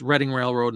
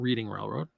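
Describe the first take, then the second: First: Reading does not sound like the verb reading. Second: Reading sounds like the verb reading. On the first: The speaker calls it right. "it's Reading Railroad" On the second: The speaker calls it wrong. "not Reading Railroad, because reading is fundamental"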